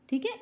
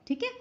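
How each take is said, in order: The two takes are said the same way.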